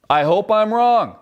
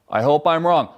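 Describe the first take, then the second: First: Slow, weighted stress on "wrong"; dragged-out line landing heavy on "wrong"; slow emphatic. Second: Said in the usual way. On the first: Shown as a demonstration. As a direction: lean hard into "wrong", earnestly.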